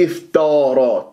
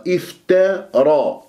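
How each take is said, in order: First: Wrong افتارى with a dark, thickened t; heavy ta error. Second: Slow افترى, thin t then full dark r; light ta, heavy ra. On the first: Teacher showing what to avoid, heavy ta in افتارى. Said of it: "لا تفخم التاء". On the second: Teacher modelling the word, light ta in افترى. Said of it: "التاء مرققة، الراء مفخمة". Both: Shown as a demonstration.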